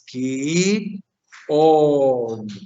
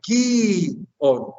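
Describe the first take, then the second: First: The final vowel is held long. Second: The final vowel is cut short. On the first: This is the nominative form. "Aquí todas son largas" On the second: This is the vocative form. "en el vocativo sería"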